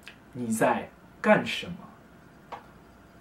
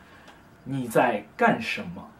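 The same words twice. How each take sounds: First: Said in the usual way. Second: 你在干什么 said slowly, each syllable spaced; slow demo. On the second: Shown as a demonstration. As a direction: spell out 你在干什么 slowly for learners. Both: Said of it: "either say".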